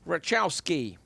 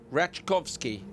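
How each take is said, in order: First: The surname is said as Rachowski. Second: The surname is said as Rachkovsky. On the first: The speaker calls it wrong. "I've got the first one wrong already" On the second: The speaker calls it right. "Rachkovsky, I think"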